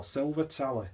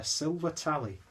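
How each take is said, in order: First: Silver Tally with a Wigan-style ending on Tally; Wigan accent. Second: Said in the usual way. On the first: Acted. Beer reviewer repeats the name in mock Wigan accent. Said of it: "that's terrible Wigan accent".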